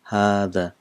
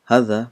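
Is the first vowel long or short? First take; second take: long; short. First: The first vowel is long. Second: The first vowel is short. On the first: "but it's pronounced as هذا" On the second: "it's written as هذا"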